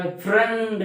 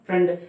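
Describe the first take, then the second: First: "फ्रेंड" stretched long through the middle; drawn-out sound. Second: Said in the usual way. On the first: Shown as a demonstration. Teacher showing learners the wrong way, "फ्रेंड" held long before the final d. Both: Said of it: "अब यहाँ फ्रेंड नहीं बोलते हैं ना".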